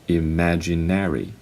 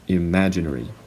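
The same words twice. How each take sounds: First: It is said in an American accent. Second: It is said in a British accent. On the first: "Americans would pronounce these words as" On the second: "British uh, people would usually pronounce these words as"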